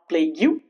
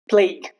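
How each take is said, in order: First: It ends with an added 'you' sound. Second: It ends without a 'you' sound. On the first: The speaker calls it wrong. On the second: The speaker calls it right. "rules where you remain silent, ending in G U E"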